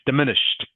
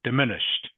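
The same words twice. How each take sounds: First: The final -ed sounds like a T. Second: The final -ed sounds like a T.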